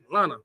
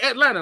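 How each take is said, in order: First: The first vowel is dropped. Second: The first vowel is clearly pronounced. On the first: The speaker calls it right. "Just say Atlanta. It's spelled L A N T A" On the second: The speaker calls it wrong. "don't say Atlanta like me"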